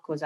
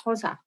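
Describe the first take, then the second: First: Xhosa said the anglicised way, a plain English X and no click; the wrong, anglicised Xhosa, smoothed over. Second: Xhosa said the native way, with the click sound at the start; proper Xhosa. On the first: Correcting herself on a language's name, anglicised first. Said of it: "I know it's Xhosa". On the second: Correcting herself on a language's name, native click pronunciation. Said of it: "and I know it's not Xhosa". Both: Shown as a demonstration.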